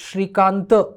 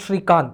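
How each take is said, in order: First: The name ends with a short final vowel. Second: The name ends on the consonant t. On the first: The speaker calls it right. "It's Shrikanta" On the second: The speaker calls it wrong. "and not Shrikant"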